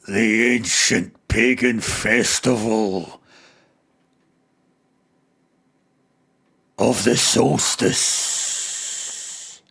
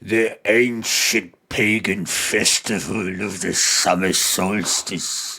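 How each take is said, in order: First: It is spoken in an Irish or Scottish accent. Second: It is spoken in an English accent. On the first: The speaker calls it wrong. "kind of Irish or Scottish accent" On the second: The speaker calls it right. "the English one"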